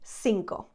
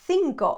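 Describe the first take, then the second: First: It begins with an s sound. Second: It begins with a th sound. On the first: This is how it is said in Latin America. "It would be cinco" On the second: This is how it is said in Spain. "would not be cinco over there"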